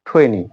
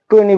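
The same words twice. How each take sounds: First: The t sound is aspirated, with a puff of air. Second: The t sound is plain, without a puff of air. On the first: The speaker calls it right. "But it will be টোয়েন্টি" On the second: The speaker calls it wrong. "আমরা টোয়েন্টি বলতাম"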